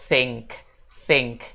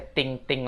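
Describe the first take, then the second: First: "think" with tongue between teeth for TH; isolated, careful "think"; correct TH sound. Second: "think" mispronounced as ting, hard T; learner's mistaken "ting"; wrong T sound. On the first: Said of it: "Tapi bacanya". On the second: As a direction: say "ting-ting" with a plain T. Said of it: "jangan dibaca ting-ting". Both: Shown as a demonstration.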